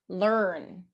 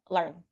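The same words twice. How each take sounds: First: The vowel sound is long and drawn out. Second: The vowel sound is short and clipped. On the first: The speaker calls it right. "It needs to be learn, longer, drag the sound" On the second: The speaker calls it wrong. "it can't be learn"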